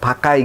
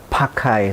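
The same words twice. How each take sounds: First: The p is said plainly without a puff. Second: The p is said with an exaggerated puff.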